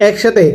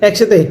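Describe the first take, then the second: The two takes are said the same way.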